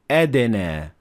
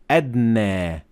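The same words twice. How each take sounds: First: The d has a clear echoing bounce. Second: The d is muted with no echoing bounce. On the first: The speaker calls it right. "you have to pronounce the dal with qalqala" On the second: The speaker calls it wrong. "you should not say adna"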